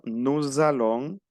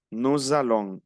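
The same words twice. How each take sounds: First: Nous allons linked as nuz-allons, with a z sound; liaison demo. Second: Said in the usual way. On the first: Shown as a demonstration. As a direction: join nous to allons with a clear z. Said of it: "Y yo digo". (nous allons con liaison, la s suena como z) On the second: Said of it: "ya estoy uniendo".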